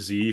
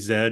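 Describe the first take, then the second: First: The letter is said as zee, American style. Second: The letter is said as zed.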